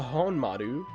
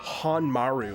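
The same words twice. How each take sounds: First: It is said with Japanese pronunciation. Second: It is said with anglicized English pronunciation. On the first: "I'm saying it in a Japanese way"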